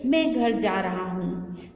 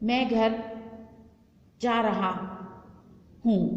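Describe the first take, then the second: First: The whole sentence flows without pauses between words. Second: Pauses break up the sentence between the words. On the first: The speaker calls it right. "जब वो विराम आया पूर्ण विराम तब आप रुकेंगे" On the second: The speaker calls it wrong. "बीच में जो है ब्रेक आ जाएगा"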